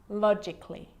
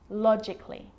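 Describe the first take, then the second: The two takes are said the same way.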